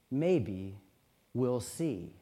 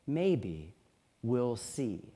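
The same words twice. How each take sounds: First: Low, soft and unhurried; calm, wise old mother letting it rest; a touch of quiet wisdom in a low voice. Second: Low and soft, a gentle knowing calm; quietly wise mother, lower and softer; knowing twinkle. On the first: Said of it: "said very calmly". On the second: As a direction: let a small private amusement show. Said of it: "with a little twinkle in her eye". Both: A narrator's reading.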